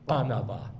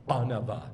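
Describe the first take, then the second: No difference in how they are said.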